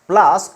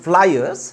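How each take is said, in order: First: It is said as one syllable, plass. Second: It is said as two syllables, ply-ers. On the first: The speaker calls it wrong. "Not ପ୍ଲାସ୍" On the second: The speaker calls it right. "This is ପ୍ଲାୟର୍ସ"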